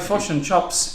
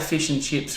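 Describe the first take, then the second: First: The vowels sound like a New Zealand accent. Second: The vowels sound standard, not New Zealand. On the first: "if you're talking in a New Zealand accent, you would sound like this" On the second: "we're trying to say fish and chips"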